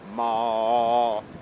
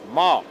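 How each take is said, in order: First: The pitch stays level throughout. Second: The pitch goes up. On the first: "einmal gerade, also quasi ohne äh, Tonänderung" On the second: "ein Ton, der nach oben geht"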